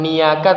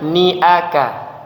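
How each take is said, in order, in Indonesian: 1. Suku katanya menyambung tanpa jeda yang jelas. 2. Ada hentian yang jelas memisahkan suku kata sebelum aka. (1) "bukan niaka" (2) "harus jelas ni aka"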